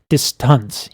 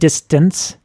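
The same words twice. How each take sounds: First: The vowel sounds dark and drooped. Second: The vowel sounds bright and lifted.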